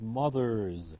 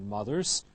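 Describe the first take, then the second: First: The word ends in a voiced buzzing z. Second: The word ends in a voiceless hissing s. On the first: The speaker calls it right. "followed by a voiced ending, ... but mothers" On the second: The speaker calls it wrong. "not mothers"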